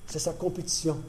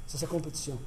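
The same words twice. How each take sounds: First: Compétition leaned on, falling at the end; stress on compétition. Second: Sa singled out, softer overall; stress on sa. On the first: Preacher pressing compétition to his flock. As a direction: land on the word compétition. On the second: Preacher repeating to stress sa to the church. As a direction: point at the word sa. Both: Shown as a demonstration.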